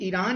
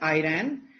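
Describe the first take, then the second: First: The word begins with an 'ee' sound. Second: The word begins with an 'eye' sound. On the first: "you are saying ईरान" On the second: "एज आयरन"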